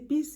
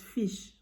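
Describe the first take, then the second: First: The word starts with a P sound. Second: The word starts with an F sound. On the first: This is how some speakers with another accent say it. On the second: This is the word as the speaker normally says it.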